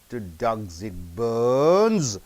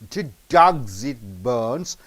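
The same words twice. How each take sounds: First: Bones carries much stronger stress than dogs. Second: Both dogs and bones carry equal stress. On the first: The question is being asked again. "If you stress on more on bones, it is a repeated" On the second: It is a plain question. "Dogs and bones are stressed"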